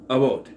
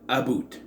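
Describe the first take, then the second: First: The Canadian vowel is only mildly marked. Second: The Canadian vowel is strongly exaggerated. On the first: This is how it is said in real Canadian shows. The speaker calls it right. "The only way I've ever heard it not pronounced in Canadian shows is about" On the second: This is how everyone in the film says it. The speaker calls it wrong. "every single person pronounces it about"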